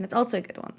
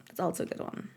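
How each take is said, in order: First: Said in the usual way. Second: Softer, breathy whispered repeat; whispered echo. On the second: Shown as a demonstration. Streamer echoing their own remark in a whisper.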